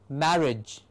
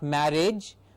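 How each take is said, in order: First: The ending is reduced to a short 'ij'. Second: The ending sounds like the word 'age'. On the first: The speaker calls it right. "but marriage, mar and ij" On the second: The speaker calls it wrong. "Not marriage"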